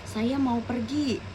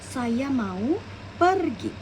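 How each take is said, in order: First: The word pergi carries no special stress. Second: The word pergi is said with strong stress.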